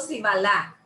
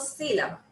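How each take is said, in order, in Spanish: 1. El acento cae en una sílaba posterior. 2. El acento cae en la primera sílaba. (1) "ni digo si balá" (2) "Lleva la mayor entonación ahí donde yo digo sí"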